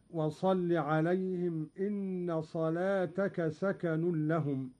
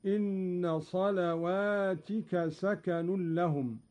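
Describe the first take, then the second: First: صلاتك said singular, ta with fatha, slow recitation; reading with صلاتك. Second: صلواتك plural, ta with kasra, slow; Qalun reading صلواتك. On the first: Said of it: "قرأ قالون بالجمع". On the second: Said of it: "أي كسر التاء هكذا". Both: Shown as a demonstration.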